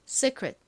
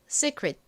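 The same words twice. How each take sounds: First: The second vowel is a weak, relaxed uh. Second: The second vowel is a clear ee sound. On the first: "정확한 발음은 secret" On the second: "이를 이 발음을 읽어서 secret"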